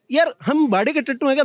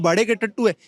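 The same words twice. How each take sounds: First: "भाड़े के टट्टू हैं क्या" thrown back as a challenge; indignant rhetorical question. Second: Said in the usual way. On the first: Real, not acted. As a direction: question "हम भाड़े के टट्टू" with a lift, not a falling statement.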